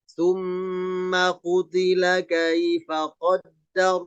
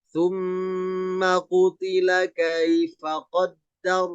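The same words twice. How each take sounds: No difference in how they are said.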